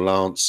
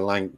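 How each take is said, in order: First: The word ends with an s sound. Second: The word ends with a k sound. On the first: This is how others say it. "They apparently pronounce it Lance" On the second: This is the speaker's own habit. "I call it Lanc"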